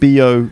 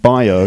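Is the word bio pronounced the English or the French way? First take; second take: French; English. First: The word is pronounced with French sounds. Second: The word is pronounced with English sounds. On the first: This is the local word used in France. "they call it bio" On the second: This is how the word is said in England. "in England we would call it bio"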